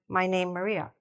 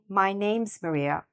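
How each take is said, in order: First: The S sound after 'name' is left out. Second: The S sound after 'name' is clearly heard. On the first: The speaker calls it wrong. "And I couldn't hear the S" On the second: The speaker calls it right. "instead of saying"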